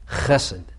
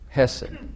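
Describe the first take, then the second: First: The word begins with a rough throaty rasp. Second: The word begins with a light breathy h. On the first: The speaker calls it right. "It's now guttural" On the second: The speaker calls it wrong. "it's not aspirated. Hesed is not hesed"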